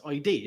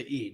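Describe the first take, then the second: First: "I D" said as two letter names; spelled-out letters. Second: "id" said as a single word; one-syllable word. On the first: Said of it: "it's I D". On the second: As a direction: rhyme "id" with lid. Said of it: "you're not gonna say id". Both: Shown as a demonstration.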